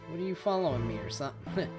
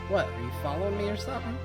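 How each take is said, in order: First: The line is read in a natural conversational way. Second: The line is read in an unnatural, stilted way.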